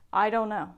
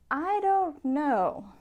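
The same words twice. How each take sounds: First: It is said quickly and flatly. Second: It is drawn out with varied intonation. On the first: The listener may simply be confused. The speaker calls it wrong. "If you just say" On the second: The speaker doubts or disagrees. The speaker calls it right. "Use a little intonation. Draw out this sentence"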